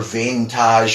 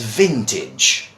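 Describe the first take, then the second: First: It is pronounced in a French-like way. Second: It is pronounced in a plain English way. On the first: The speaker calls it wrong. "maybe trying to imitate the French" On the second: The speaker calls it right. "So the pronunciation to this word is vintage"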